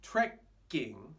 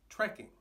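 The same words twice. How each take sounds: First: The k sound is held long, doubled. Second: The k sound is short, a single k. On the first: The speaker calls it wrong. "It's not trekking" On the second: The speaker calls it right. "it's trekking. No change"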